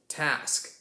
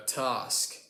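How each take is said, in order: First: Task with a flat a as in cat; American task. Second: Task with a long back ah, tahsk; southern British task. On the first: American host answering the cousin, flat a. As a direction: say task with a short front a. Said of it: "it's an ah sound". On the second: British cousin giving southern English example, long ah. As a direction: say task with a broad ah. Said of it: "we like to use an R sound". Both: Shown as a demonstration.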